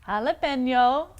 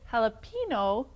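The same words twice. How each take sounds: First: The ending sounds like 'pen-yo'. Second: The ending sounds like 'pee-no'. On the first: The speaker calls it right. "it is um, jalapeno" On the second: The speaker calls it wrong. "When you say it jalapeno, pino rhymes with a man's body part"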